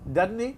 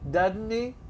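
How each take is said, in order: First: It is said at normal conversational speed. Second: It is said slowly and drawn out.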